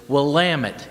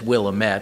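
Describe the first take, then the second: First: The ending rhymes with 'damn it'. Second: The ending does not rhyme with 'damn it'. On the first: The speaker calls it right. "the way you pronounce it is Willamette, damn it" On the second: The speaker calls it wrong. "or you read it as Willamette"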